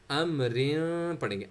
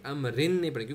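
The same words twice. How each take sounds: First: अमरिन said slowly, the final n hidden in a nasal hum; hidden nasal nun. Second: अमरिन with a full, clearly pronounced n at the end; clear wrong n. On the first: Teacher modelling the correct ikhfa reading of अमरिन, nasal. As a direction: hum the end of अमरिन through the nose, no clear n. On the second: Teacher showing students the reading to avoid, clear n. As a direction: sound the n of अमरिन fully, the wrong way. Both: Shown as a demonstration.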